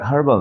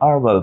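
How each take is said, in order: First: The word begins with an h sound. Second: The word begins with a vowel sound. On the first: The speaker calls it wrong. "এটা হার্বাল না" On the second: The speaker calls it right. "যদি British অ্যাকসেন্টে বলি ... এটাকে আরবাল উচ্চারণ করে"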